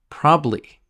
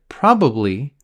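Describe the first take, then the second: First: The middle syllable is dropped. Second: The middle syllable is fully pronounced. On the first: "we eliminate the middle" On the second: "so we eliminate the middle, and probably becomes"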